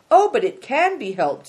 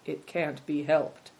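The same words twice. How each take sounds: First: Loud, high objection leaning on "can"; stress on CAN. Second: Said in the usual way. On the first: A narrator's reading. Little Snowbird contradicts the others, emphatic on "can". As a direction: hit "can" hard to contradict.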